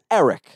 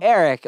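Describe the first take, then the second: First: "Eric" with short e of elevator. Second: "Eric" with first vowel like "air"; Eric with air sound. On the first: Correcting how own name is said, "Eric" with elevator's short e. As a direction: start "Eric" like "elephant", short e. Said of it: "like elevator". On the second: Showing how people say the name, "Eric" with an air vowel. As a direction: open "Eric" like the word air. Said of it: "the air sound for some reason". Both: Shown as a demonstration.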